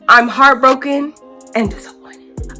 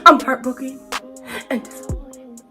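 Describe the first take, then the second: First: It is read in a plain, flat way. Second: It is read in an exaggerated, dramatic way.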